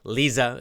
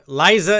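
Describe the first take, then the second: First: The first vowel is a short I sound. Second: The first vowel is a long I sound. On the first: "Lisa is a short I" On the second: "Liza is a long I"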